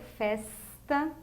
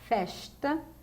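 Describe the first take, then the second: First: It is said in a São Paulo accent. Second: It is said in a Rio de Janeiro accent. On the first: "em São Paulo" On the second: "no Rio de Janeiro"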